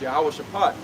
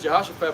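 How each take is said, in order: First: The name begins with a 'yahweh' sound. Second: The name begins with a 'jeho' sound. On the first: The speaker calls it right. "the correct pronunciation is Yahweh Shaphat" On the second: The speaker calls it wrong. "it says Jehoshaphat"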